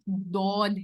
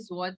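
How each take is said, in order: First: The letter begins with a heavy d sound. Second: The letter begins with a z sound. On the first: The speaker calls it right. "ये दौद है" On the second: The speaker calls it wrong. "ये जौद नहीं है"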